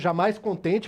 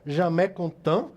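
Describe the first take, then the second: First: The name is read letter by letter, as spelled. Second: The name is given a French pronunciation. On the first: "da forma que escreve" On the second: "segundo a pronúncia que o professor Márcio me ensinou"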